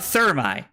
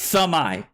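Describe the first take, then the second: First: The name is said with an R sound. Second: The name is said without an R sound. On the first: The speaker calls it wrong. "It's not Thermi. I had no idea there was no R" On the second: The speaker calls it right. "It's Thamai"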